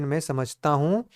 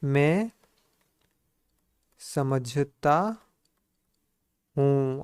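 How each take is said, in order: First: Said in the usual way. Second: Very slow, each word stretched and spaced; word-by-word dictation. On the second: Shown as a demonstration. Teacher dictating to the class, very slowly. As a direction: drag it out word by word for writing. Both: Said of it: "क्या हो जाए?".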